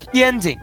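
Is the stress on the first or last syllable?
first. The stress is on the first syllable.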